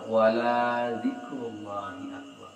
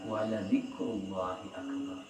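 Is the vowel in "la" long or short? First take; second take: long; short. First: The vowel in "la" is drawn out long. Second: The vowel in "la" is kept short. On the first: Remembering God is not a great deed. The speaker calls it wrong. "Itu salah. Kalau dipanjangkan lanya akan berbeda arti" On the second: Remembering God is indeed a great deed. The speaker calls it right. "Al-Quran menyampaikan"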